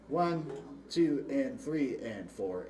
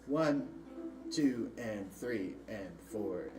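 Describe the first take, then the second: First: The counting is moderately slower. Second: The counting is the slowest.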